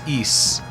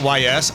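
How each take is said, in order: First: The name is said as one short word. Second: The name is said as two separate letters. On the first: "the pronunciation is Is" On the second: "I understand why you pronounce it Y S"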